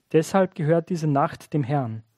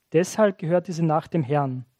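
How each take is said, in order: Both takes have the same delivery.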